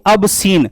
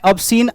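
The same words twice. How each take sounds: First: "obscene" broken slowly into two words, "ab" and "seen"; split pronunciation. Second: Said in the usual way. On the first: Shown as a demonstration. Teacher giving a memory trick, "obscene" split as ab-seen. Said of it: "अब यहां से आप लिख सकते हैं". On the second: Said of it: "इसका pronunciation है".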